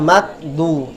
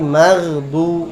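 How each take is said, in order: First: The middle consonant is a sharp stop. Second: The middle consonant flows as a fricative. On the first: The speaker calls it wrong. "bukan magdu" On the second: The speaker calls it right. "mengalir ya maghdu"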